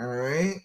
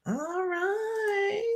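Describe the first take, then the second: First: Said in the usual way. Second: Sing-song high all right, held out; high drawn-out all right. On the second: Acted. Host echoing herself to the viewer, high and drawn out. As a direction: stretch it way up high and long.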